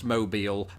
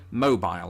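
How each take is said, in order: First: It is said as the Alabama city name. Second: It is said with a British pronunciation. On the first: "a city spelt exactly the same way, pronounced Mobile" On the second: "Because I say mobile"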